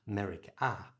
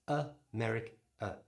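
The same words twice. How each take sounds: First: America with a full AH at both ends; full ah vowels. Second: America split as uh-meric-uh; weak uh either side of a strong MERIC in America; schwa at both ends. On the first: Teacher showing the wrong way, America with full AH sounds. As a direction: split America as ah-meric-ah. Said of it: "It's not". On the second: Teacher showing the right way, America as uh-meric-uh. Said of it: "a at the beginning is a schwa". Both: Shown as a demonstration.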